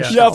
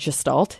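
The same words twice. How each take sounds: First: The middle consonant is an sh sound. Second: The middle consonant is a plain s sound. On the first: This is the original German way of saying it. The speaker calls it right. "Hard G, S H E sound" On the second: This is a regional way of saying it. The speaker calls it wrong. "every psych professor I've ever had living in the South said Gestalt"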